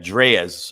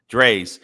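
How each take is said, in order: First: The name does not sound like plain 'Dre's'. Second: The name sounds just like 'Dre' with s. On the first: The speaker calls it wrong. "I think I'm saying it right" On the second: The speaker calls it right. "Just like the doctor, dog. Just Dre's"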